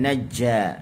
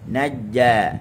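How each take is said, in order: First: The j sound is released with a puff of air. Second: The j sound is released without a puff of air. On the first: The speaker calls it wrong. "bukan najja, jangan keluarkan angin" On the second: The speaker calls it right. "dia tengah lidah kena dengan langit"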